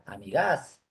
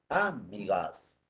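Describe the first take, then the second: First: The stress is on the last syllable. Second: The stress is on the first syllable. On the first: "Si fuera la última" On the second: "Si fuera como de drújula"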